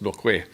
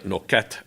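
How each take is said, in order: First: The final T is left silent. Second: The final T is clearly sounded. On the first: The speaker calls it right. "the French won't pronounce the T" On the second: The speaker calls it wrong. "even though it looks like Noquette"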